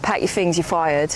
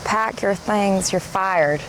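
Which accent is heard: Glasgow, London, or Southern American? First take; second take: London; Southern American. First: It is said in a South East London accent. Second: It is said in a Southern American accent. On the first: "a London accent? South East London" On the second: "your Thelma accent. It's presumably a Southern American"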